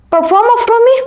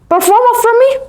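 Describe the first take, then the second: Both takes have the same delivery.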